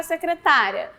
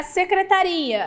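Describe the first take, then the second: First: "secretária" with the stress on TÁ. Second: "secretaria" with the stress on RI. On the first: Teacher contrasting two similar words, "secretária" stressed on TÁ. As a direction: say "secretária" as se-cre-TÁ-ria. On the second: Teacher contrasting two similar words, "secretaria" stressed on RI. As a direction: say "secretaria" as se-cre-ta-RI-a. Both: Shown as a demonstration.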